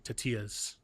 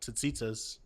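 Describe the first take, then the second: First: The middle consonant has a Y sound. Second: The middle consonant has a Z sound. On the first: This is how the speaker's cousins say it. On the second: This is how the speaker grew up saying it.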